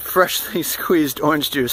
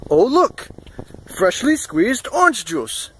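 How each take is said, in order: First: Said in the usual way. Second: High-pitched, drawn-out mock presentation; imitating the shop owner. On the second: Shop owner presenting fresh juice to guests, slow showy imitation. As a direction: announce it slowly and higher, like a showy host. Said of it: "He said it just like that".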